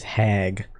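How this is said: The word is said with a foreign-sounding accent. This is how the character says it. "she says hag"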